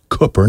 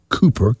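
First: The first vowel is short, as in book. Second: The first vowel is long, as in coop. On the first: The speaker calls it right. "which is pronounced Cooper, ... Cook, like book, look, or took" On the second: The speaker calls it wrong. "not Cooper"

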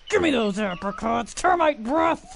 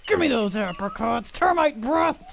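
First: The line is said with a growl. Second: The same.

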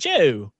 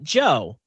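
First: The name is said in a British accent. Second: The name is said in an American accent. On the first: "if you were saying my name with a British accent, it'd be" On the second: "with the accent that we have"

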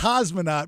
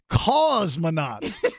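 First: The first syllable is said normally. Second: The first syllable is hit hard and forcefully. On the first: "it's a cosmonaut" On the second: "you were hitting the cause hard"

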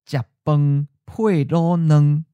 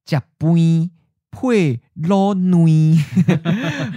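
First: It is said in a common, non-Yilan accent. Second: It is said in a Yilan accent, more nasal. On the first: "for the phrase, eat rice with a braised egg" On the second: "you might hear instead"

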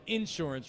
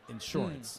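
First: The stress is on the first syllable. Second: The stress is on the second syllable. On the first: This is how Midwestern people say it. "Midwestern people will say insurance" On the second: This is how other speakers say it. "rather than insurance"

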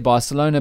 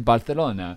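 First: The c is said as a plain s sound. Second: The c is said as a lisped th sound. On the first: This is how English speakers say it. "So we say Barcelona" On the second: This is how Spanish speakers say it. "but they say Barcelona"

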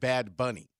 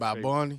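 First: Each word is said clearly and separately. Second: The words blur together into one word.

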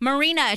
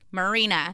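First: The name is yelled loudly. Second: The name is said somewhat louder. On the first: "Can you like yell it or something?" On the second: "Can you say it a little bit louder?"

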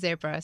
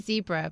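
First: It is said with a non-American pronunciation. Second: It is said with an American pronunciation. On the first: The speaker calls it right. "but it's a zebra" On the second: The speaker calls it wrong. "Americans say zebra"

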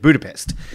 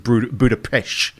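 First: The word ends with a plain s sound. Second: The word ends with a hushing sh sound. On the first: This is how most people say it. The speaker calls it wrong. "everyone around the world generally knows this particular city as Budapest" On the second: This is how locals say it. The speaker calls it right. "its proper pronunciation is Budapest. So you don't. It's like a ch"

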